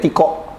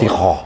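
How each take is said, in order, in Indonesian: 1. Konsonan tengahnya bunyi k. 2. Konsonan tengahnya bunyi h. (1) "Kita manggilnya Tiko" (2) "namanya sebenarnya harus"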